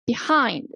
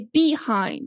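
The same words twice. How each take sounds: First: The stress is on the second syllable. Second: The stress is on the first syllable. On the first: The speaker calls it right. "So the second syllable is stressed" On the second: The speaker calls it wrong. "We didn't say behind"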